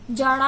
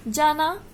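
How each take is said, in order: First: "जाड़ा" for jana, n turned into a flapped ṛ; incorrect pronunciation. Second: Said in the usual way. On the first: Shown as a demonstration. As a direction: curl the tongue for the second syllable of "जाड़ा". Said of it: "ड़ा बोलते हैं". ("जाड़ा" में न की जगह ड़ बोलें) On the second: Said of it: "न को क्या बोलते हैं".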